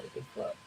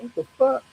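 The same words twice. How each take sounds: First: Hushed, breathless whisper. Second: High, startled yelp of a question; shocked. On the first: Staring at the see-through girl, a stunned whisper. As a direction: say it under your breath in awe. Second reaction to the ghost. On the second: Ghost girl slides back from his face, a high startled yelp. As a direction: jump way up in pitch, caught off guard. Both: Retold or imitated.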